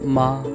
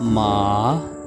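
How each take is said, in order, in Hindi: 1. शब्द जल्दी और तीखे स्वर में कहा जाता है। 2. पिच नीचे जाती है, फिर ऊपर उठती है। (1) "तेज़ी के साथ आपने ऐसे बोलना है" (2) "गोइंग डाउन एंड अप"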